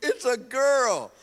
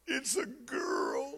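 First: Louder, higher mocking replay; teasing replay of his wife's words; mock announcement. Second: Slow, tearful whisper; imitating his crying wife, softly. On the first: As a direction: echo it as if it were tragic news, hammed up. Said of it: "Like that was gonna be bad news". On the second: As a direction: whisper it through tears like bad news. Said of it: "she started crying".

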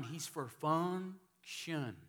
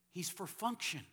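First: "function" drawn out, very slow and weighty; slow stressed repeat. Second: Said in the usual way. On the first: Shown as a demonstration. Pastor repeating his key line to the congregation, very slow and stressed. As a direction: lean on every word of "he's for function". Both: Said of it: "He's not just for fun".

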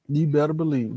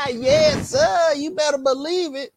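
First: Said in the usual way. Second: High, gleeful brag; triumphant boast. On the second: Real, not acted. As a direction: crow with glee.

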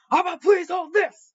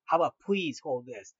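First: Much higher and louder, hammed-up sneer; mock him by throwing his words back; furious mocking echo. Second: Lower, steady, restrained reply; calm and stern. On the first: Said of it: "says back to the bar patron". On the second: Retold or imitated. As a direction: keep your cool and stand firm. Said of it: "calm but sternful manner".

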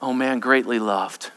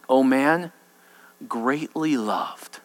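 First: Soft, low and gentle; tender reassurance. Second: Soft, very slow, low; tender reassurance. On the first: Angel gently answers the devil's lie, soft and low. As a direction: answer the lie with quiet love. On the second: Angel tenderly reassures Daniel, soft and slow. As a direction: linger on greatly loved. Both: Acted.

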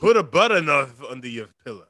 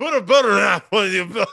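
First: Garbled words, mouth not cooperating; mouth not working. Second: Louder and higher, laughing through it; laughing retry. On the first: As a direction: slur through it like a numb mouth. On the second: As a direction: try again while cracking up. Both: Real, not acted. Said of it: "did you try to say butter knife?".

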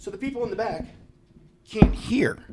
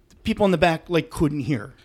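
First: Thin high whispered voice demoing the inaudible speech; imitating the faint mic. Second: Said in the usual way. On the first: Shown as a demonstration. To show the podcast how faint the speech was, thin whisper. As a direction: mimic a speech you can barely hear. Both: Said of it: "This is gonna sound terrible on the podcast".

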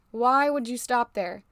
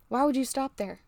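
First: Slow, with WHY stretched and stressed; emphatic repeat. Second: Said in the usual way. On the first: Real, not acted. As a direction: lean hard on "Why", drawing the question out. Rhetorical question repeated for emphasis.

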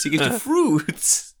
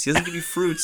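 First: Fruits drawn out slowly with a laugh; slow knowing fruits. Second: Said in the usual way. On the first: Shown as a demonstration. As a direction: lean on fruits, slow and winking. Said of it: "when I say fruits".

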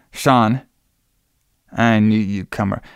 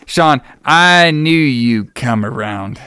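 First: Said in the usual way. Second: Slow, drawn-out mock drama; theatrically elongated retold line; hammed-up delivery. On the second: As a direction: stretch every word for comic effect.

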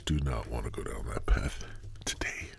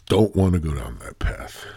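First: Low near-whisper, trailing away; hushed aside. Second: Said in the usual way. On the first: Real, not acted. Host steering himself off a bad topic, hushed aside. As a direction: drop right down as if warning yourself.

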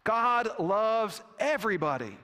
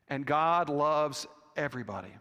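First: Firm, higher-pitched declaration. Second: Said in the usual way. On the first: Retold or imitated. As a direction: state it firmly, with weight on each word. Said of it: "the bishop said firmly". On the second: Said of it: "and added".

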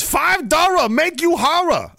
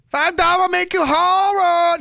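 First: Put-on high, loud, slow Vietnamese-accented solicitation; mock Vietnamese accent. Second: Even higher, louder, drawn-out Vietnamese caricature; mock Vietnamese accent. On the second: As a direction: shriek it slowly in a put-on Vietnamese accent. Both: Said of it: "No, it's a Vietnamese hooker".

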